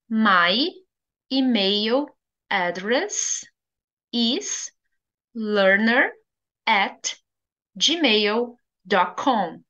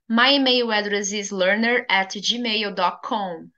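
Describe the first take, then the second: First: The sentence is spoken slowly. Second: The sentence is spoken at a normal pace.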